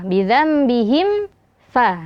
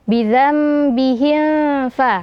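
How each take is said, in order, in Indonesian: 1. Bunyi m sebelum f itu jelas. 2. Bunyi m sebelum f itu samar. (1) "Kita sempurnakan dulu mimnya" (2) "suara samar dari mim jika kita tidak menyempurnakan mimnya"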